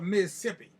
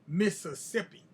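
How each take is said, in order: First: Said the local Southern way, ending like 'sippy'. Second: Said the outsider way, not ending like 'sippy'. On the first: The speaker is from down there. The speaker calls it right. "If you want to say it right, you got to call it Mississippi" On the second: The speaker is not from down there. The speaker calls it wrong. "that tells everybody you ain't from down there"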